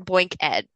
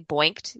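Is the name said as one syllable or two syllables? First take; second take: two; one. First: It is said as two syllables, ending in ed. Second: It is said as one syllable, ending in t. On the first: The ending stands for education. "or boink ed, because we're educating people" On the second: It is the past tense of the verb boink. "you could say boinked, you've been boinked"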